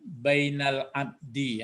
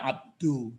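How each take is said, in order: First: The word ends in an i vowel. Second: The word ends in a u vowel. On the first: The speaker calls it right. "kenapa abdi dibaca tadi ya?" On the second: The speaker calls it wrong. "dalnya ini tidak abdu"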